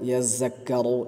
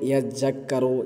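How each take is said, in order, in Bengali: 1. ডাবল হওয়া ব্যঞ্জনটি 'z' বা 'j'-এর মতো শোনায়। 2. ডাবল হওয়া ব্যঞ্জনটি 'z' বা 'j'-এর মতো শোনায়।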